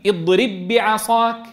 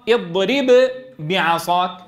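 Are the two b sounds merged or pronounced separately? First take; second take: merged; separate. First: The two b sounds merge into one. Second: The two b sounds are pronounced separately. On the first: "أن تقول مدغما" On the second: "أن تقول مظهرا"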